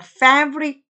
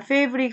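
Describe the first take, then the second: First: The first vowel is open with a dropped jaw. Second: The first vowel is relaxed with little jaw drop. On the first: The speaker calls it right. "턱을 많이 떨어뜨립니다" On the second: The speaker calls it wrong. "이렇게 편안하게 발음하시면 안 돼요"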